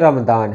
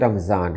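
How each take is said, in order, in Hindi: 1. बीच का व्यंजन अरबी वाली भारी d जैसी आवाज़ है। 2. बीच का व्यंजन साधारण z जैसी आवाज़ है। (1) "अगर अरबी का ख्याल रख रहे हैं तो ये रमज़ान है" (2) "अगर आप इसे उर्दू में बोल रहे हैं तो ये रमज़ान है"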